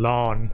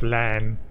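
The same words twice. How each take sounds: First: The vowel is a long open 'ah' sound. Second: The vowel is a short flat 'a' sound. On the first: The speaker calls it right. "I would almost say L-A-H-N" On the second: The speaker calls it wrong. "instead of Lan"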